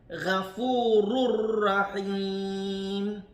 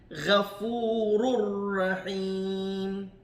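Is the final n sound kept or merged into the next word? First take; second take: merged; merged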